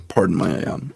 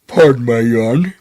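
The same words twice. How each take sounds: First: Said in the usual way. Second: Words stretched through a yawn. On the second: Real, not acted. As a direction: yawn while talking.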